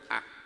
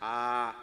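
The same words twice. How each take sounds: First: The vowel is short and clipped. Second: The vowel is held long. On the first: "es una A corta, A, seca" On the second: "una letra larga, una A larga"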